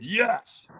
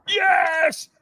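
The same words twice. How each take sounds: First: Said in the usual way. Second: High-pitched drawn-out scream; screamed yes. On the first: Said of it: "He screams at me". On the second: Retold or imitated. Firewalker screams back at the trainer, retold all-out yell. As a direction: give everything on one long yell. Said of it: "and I screamed".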